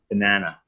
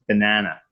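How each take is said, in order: First: It is said with a North American accent. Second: The same.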